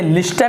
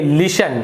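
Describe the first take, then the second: First: A t sound is pronounced after the s. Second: No t sound is pronounced after the s. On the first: The speaker calls it wrong. "इसे लिस्टन नहीं पढ़ेंगे" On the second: The speaker calls it right. "टी silent है"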